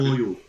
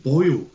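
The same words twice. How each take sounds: First: "Boyo" in a light mock Irish lilt at normal level. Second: "Boyo" punched out louder in a mock Irish accent with a falling end; exasperated mock Irish. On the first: Friend quoting the captain's word, light mock Irish. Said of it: "nobody says". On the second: Friend ranting about the captain's accent, loud mock Irish. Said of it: "That's, that's fucking".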